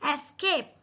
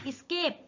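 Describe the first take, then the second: First: The word begins with an 'e' vowel sound. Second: The word begins directly with an 's' sound. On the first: The speaker calls it right. "इसका correct pronunciation" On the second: The speaker calls it wrong. "ये स्केप नहीं है"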